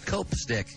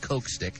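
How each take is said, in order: First: The first syllable ends in a p sound. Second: The first syllable ends in a k sound. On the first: The speaker calls it right. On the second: The speaker calls it wrong. "Not Coke Stick"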